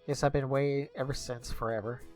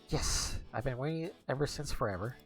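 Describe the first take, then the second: First: It is said flatly, with little enthusiasm. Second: It is said with more enthusiasm and energy.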